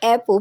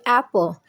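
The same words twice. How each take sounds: First: The first vowel is not a short 'a'. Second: The first vowel is a short 'a' sound. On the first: The speaker calls it wrong. "you don't say apple" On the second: The speaker calls it right. "please say apple"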